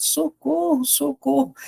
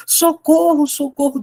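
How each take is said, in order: First: Desperate cry. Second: High panicked cry for help; desperate cry. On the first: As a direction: cry out for help, scared. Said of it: "Ele saiu desesperado". (grito aflito, agudo mas sem volume) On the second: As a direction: shout for help like a scared boy. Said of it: "desesperado, gente". (grito desesperado de socorro, agudo) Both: Acted.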